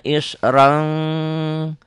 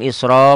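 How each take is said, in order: First: The word ends with an n sound. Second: The word ends with a long a vowel. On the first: The reading continues without stopping. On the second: The reader stops on this word.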